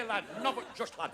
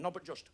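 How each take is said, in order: First: "not but just lad" in a broad Yorkshire dad voice; a Yorkshire father grumbling "not but just lad"; Northern dad. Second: "not but just" said quietly in a Northern way; Northern phrase. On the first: Retold or imitated. Northern father scolding his son, broad Yorkshire grumble. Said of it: "dad said". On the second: Shown as a demonstration. A Northerner showing how they say "not but just", quiet and Northern. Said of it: "'cause we say".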